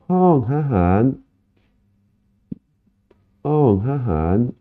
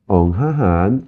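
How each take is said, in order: First: Hong Hahan said slowly, pitched higher, tones exaggerated; slow modelled word. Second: Said in the usual way. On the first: Shown as a demonstration. Teacher slowly modelling Hong Hahan for students. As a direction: stretch out Hong Hahan with high rising tones. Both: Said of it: "teacher models the word".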